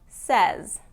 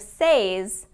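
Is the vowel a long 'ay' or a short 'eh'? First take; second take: short eh; long ay. First: The vowel is a short 'eh' sound. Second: The vowel is a long 'ay' sound. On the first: The speaker calls it right. "it's usually pronounced as says" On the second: The speaker calls it wrong. "Instead of says, like it's spelled"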